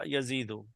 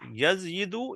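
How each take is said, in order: First: No y glide is heard before the vowel. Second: A y glide is heard before the vowel. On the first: This is the changed form that is actually used. "Which one is easy to say?" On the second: This is the underlying form before the change. "yazyidu will change into yazidu"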